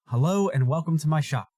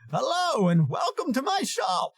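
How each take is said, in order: First: It is said in the speaker's own voice. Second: It is said in an impression of Deckard Cain.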